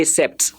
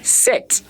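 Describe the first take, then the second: First: "sept" with the p heard before the t; the learner's mistake "sept", p pronounced; sounded P. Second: "Set" with no p before the t; silent P. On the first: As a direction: say "sept" wrongly, voicing both p and t. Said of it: "Please don't say sept". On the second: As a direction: say "Set" as one short syllable, ending in t alone. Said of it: "That is how you pronounce it". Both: Shown as a demonstration.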